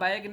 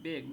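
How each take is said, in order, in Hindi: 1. स्वर की ध्वनि लंबी 'ai' है। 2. स्वर की ध्वनि छोटी 'e' है। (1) "बैग नहीं, यही मेरे से गलती"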